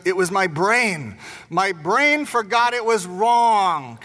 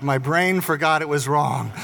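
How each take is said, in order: First: Lightly voiced small boy pleading "My brain forgot it was wrong"; little boy's excuse. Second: Said in the usual way. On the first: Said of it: "And so he goes". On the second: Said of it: "And it's like".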